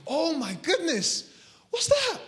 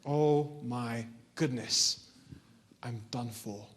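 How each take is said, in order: First: Frightened alarm. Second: Very slow, low, sinking voice; doomed resignation. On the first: Boy hears a wolf howl on the mountain, frightened alarm. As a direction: react with acted alarm, voice leaping up. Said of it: "sent chills down his spine". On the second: Boy hearing wolves all around him, doomed resignation. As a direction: drag it out as if all hope is gone. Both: Acted.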